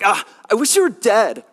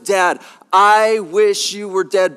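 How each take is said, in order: First: It sounds like a whiny, moody teenager. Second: It sounds serious and truly meant.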